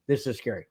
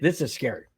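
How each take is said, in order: First: "This is scary" dropped softer and lower; softer repeat. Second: Said in the usual way. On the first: Real, not acted. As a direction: hush the repeat for effect.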